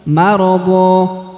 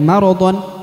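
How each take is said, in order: First: The word ends with a lengthened a vowel. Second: The word ends with a short vowel plus n. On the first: The speaker calls it right. "tapi maradha. Jadi harus dipanjangkan kurang lebih dua harokat" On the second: The speaker calls it wrong. "bukan lagi maradhon"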